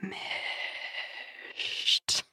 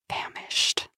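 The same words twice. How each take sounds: First: The word is said slowly and drawn out. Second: The word is said quickly and short. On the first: The speaker calls it right. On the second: The speaker calls it wrong. "Not like that"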